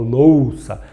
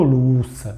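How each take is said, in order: First: "louça" with a full O in OU; "louça" with a long O, not U; louça with O sound. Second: "louça" said as "luça"; wrong take of "louça", first vowel turned to U; louça without the O. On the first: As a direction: say "louça" as LOH-sa, the O clearly sounded. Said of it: "eu falo louça". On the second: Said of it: "Não falo louça". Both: Shown as a demonstration.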